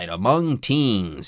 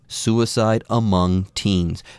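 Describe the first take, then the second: First: It is read with exuberance and energy. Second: It is read in a somber, serious tone.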